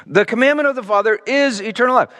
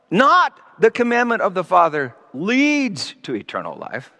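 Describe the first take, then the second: First: "commandment" leaned on, with a falling close on "eternal life"; correct reading. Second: "Not" stressed at the start, sentence falling away on "life"; wrong reading. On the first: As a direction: stress on "commandment", "eternal life" as a plain statement. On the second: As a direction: hit "Not" first and let "life" fade. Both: Shown as a demonstration. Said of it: "That's how the N I V translates it, which is wrong".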